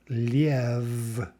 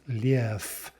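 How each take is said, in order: First: The word ends with a voiced V sound. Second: The word ends with a voiceless F sound. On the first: The speaker calls it wrong. "we write this word liev, that's not the way it's pronounced" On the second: The speaker calls it right. "It's pronounced lief"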